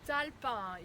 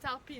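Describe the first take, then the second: First: The name is said with a French pronunciation. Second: The name is said with an American pronunciation. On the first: "Talpin in French" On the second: "I do it the American way now"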